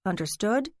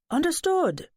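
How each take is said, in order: First: Said in the usual way. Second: Grand dramatic exclamation, higher; theatrical high. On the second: Acted. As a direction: sing it out high and bright. Lance answers with flourish.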